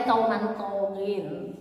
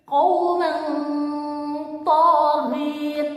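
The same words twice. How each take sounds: First: Said in the usual way. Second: Qauman taghin with the n fully clear; crisp unhidden n in qauman; wrong reading. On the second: Shown as a demonstration. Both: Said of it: "Tidak boleh qauman taghin".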